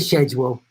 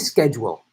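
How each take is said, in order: First: The word is said with a British pronunciation. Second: The word is said with an American pronunciation. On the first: The speaker calls it wrong. "I know it's called the English language, but don't say schedule" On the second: The speaker calls it right. "Say schedule"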